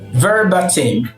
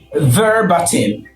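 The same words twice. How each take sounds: First: The middle syllable has a short 'ba' vowel. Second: The same.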